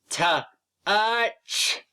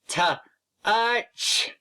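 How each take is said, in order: First: The word is split into separate sound parts. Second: The word is split into separate sound parts.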